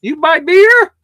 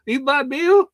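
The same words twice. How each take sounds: First: High, loud mock Indian shopkeeper asking "You buy beer?"; loud mock Indian-accented shopkeeper question. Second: Mock Indian accent. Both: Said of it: "Go back to India".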